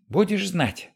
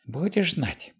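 First: Angrier repeat. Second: Put-on high scolding old woman voice; angry old woman. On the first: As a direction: scold it harder the second time. Repeat, louder. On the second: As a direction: scold like a furious old lady. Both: A narrator's reading.

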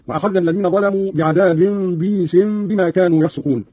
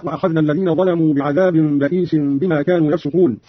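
First: بئيس said bīsin, long ī without hamza; Qalun's reading. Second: Said in the usual way. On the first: Shown as a demonstration. Teacher demonstrating Qalun's reading, بئيس as bīsin. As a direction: drop the hamza in بئيس, drawing out bī-sin. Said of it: "قرأ قالون بكسر الباء بعدها ياء ساكنة مادية". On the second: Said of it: "قرأ قالون بكسر الباء بعدها ياء".

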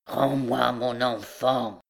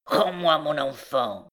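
First: Slow, heavy, relentless demand; obsessed mother, slow and immovable; implacable recluse. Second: Relentless demand, lightly voiced; a hint of a grim recluse; implacable recluse. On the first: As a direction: drag it out, unmoved by begging. Recluse repeats her implacable demand. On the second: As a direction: demand it like an obsessed mother. Recluse demands child, against pleading girl. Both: A narrator's reading.

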